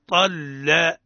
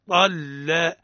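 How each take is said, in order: No difference in how they are said.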